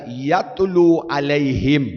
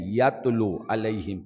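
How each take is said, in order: First: یتلو علیہم stretched slowly, rising at the end; the preacher savours the word یتلو, slow and rising; drawn-out yatlu. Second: Said in the usual way. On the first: Shown as a demonstration. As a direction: linger on یتلو علیہم like a recitation. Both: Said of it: "یہ نہیں کہا کہ یقرأ علیہم".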